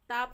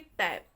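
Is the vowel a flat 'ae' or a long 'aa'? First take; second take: long aa; flat ae. First: The vowel is a long, open 'aa' sound. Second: The vowel is a flat, front 'ae' sound. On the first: The speaker calls it wrong. "टाप नहीं" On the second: The speaker calls it right. "इसको हम पढ़ेंगे टैप"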